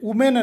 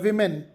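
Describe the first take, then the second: First: The first vowel sounds like 'oo'. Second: The first vowel sounds like 'ih'. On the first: The speaker calls it wrong. "ವುಮೆನ್ ಅಲ್ಲ" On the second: The speaker calls it right. "ಅಲ್ಲ ವಿಮೆನ್"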